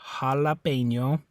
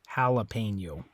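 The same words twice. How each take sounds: First: The a vowels are all an open ah. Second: The a vowels sound like English vowels. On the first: "So in Spanish" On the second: "In English, I think most people say"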